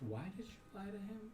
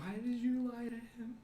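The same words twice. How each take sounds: First: It is said quietly, with a lowered voice. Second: It is said at normal, louder volume.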